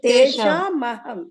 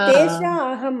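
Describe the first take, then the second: First: The first word ends with a clear m sound. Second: The first word ends without an m sound. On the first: The speaker calls it right. "ತೇಷಾಂ ಅಹಂ ಅಲ್ಲಿ ಸ್ಪಷ್ಟವಾಗಿ ಕೇಳ್ಬೇಕು" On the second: The speaker calls it wrong. "ಅನ್ಬಾರ್ದು"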